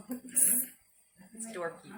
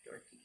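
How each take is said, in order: First: Said in the usual way. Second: Quiet repeat. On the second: Shown as a demonstration.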